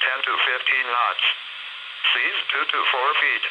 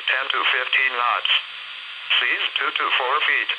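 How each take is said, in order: Both takes have the same delivery.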